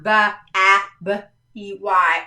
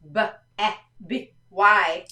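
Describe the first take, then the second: First: B, A, B, E, Y spelled as the wrong way; a mock wrong spelling; wrong spelling shown. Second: B, E, B, Y spelled out; each letter named clearly. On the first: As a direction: spell B A B E Y to show the mistake. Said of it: "It's not like that". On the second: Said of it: "so it's not B, A, B, E, Y". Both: Shown as a demonstration.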